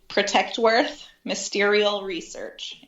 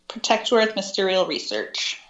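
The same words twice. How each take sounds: First: It is said slowly. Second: It is said at normal speed.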